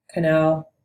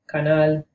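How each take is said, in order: First: Canal in English, kuh-NAL; plain English canal; English pronunciation. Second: Canal in Spanish with open a's, kah-NAHL; Spanish pronunciation. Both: Shown as a demonstration. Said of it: "cognates in Spanish and English".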